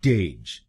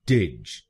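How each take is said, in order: First: टेज with a long ए vowel; टेज said the wrong way; wrong syllable. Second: टिज with a short इ, said lower; टिज said the right way; correct syllable. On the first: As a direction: show the mistaken टेज. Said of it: "गलत pronunciation में हम इस शब्दांश को बोलते हैं टेज". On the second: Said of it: "इसको बोलिए टिज". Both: Shown as a demonstration.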